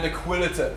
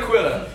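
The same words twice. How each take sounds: First: "Aquilata" with an extra "ta" ending; mispronounced name. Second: Said in the usual way. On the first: Real, not acted. Preacher listing case studies slips on the name, mispronounced. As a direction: stumble into "Aquilata", adding a syllable to the name. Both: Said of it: "not Aquilata".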